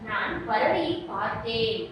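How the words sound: The last word carries the main stress. It says what was done to the bird. "நான் பறவையை என்ன செஞ்சேன் அப்படின்னு கேள்விக்கு அது பதிலா வரும்"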